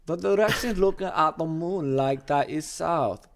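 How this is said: It is read in a put-on English accent.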